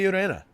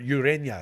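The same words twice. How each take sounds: First: The middle consonant is a plain n sound. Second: The middle consonant is an ny sound. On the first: The speaker calls it wrong. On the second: The speaker calls it right.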